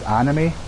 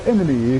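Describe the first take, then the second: First: The word is said the usual way, as anime. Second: The word is said so it sounds like enemy. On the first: "he's really into his anime" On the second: "he pronounces it enemy"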